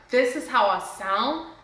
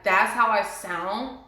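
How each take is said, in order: First: Slow, wondering discovery of her own voice; amazed. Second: Slow, dismayed disbelief at her own voice. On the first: Hearing her recording, amazed at her voice. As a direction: let the wonder sink in. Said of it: "amazed at my voice". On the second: Hearing her recording, dismayed at her voice. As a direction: drag it out, appalled by the sound. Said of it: "I hated my voice". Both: Retold or imitated.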